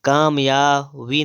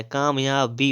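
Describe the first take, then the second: First: कामयाबी ending in vī; wrong pronunciation. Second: कामयाबी ending in bī; closed-lip b in slow कामयाबी; correct pronunciation. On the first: Teacher showing the error, कामयाबी as kāmyāvī. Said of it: "कामयाबी नहीं होता है". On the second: Teacher correcting, slow कामयाबी with b. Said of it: "कामयाबी होता है". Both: Shown as a demonstration.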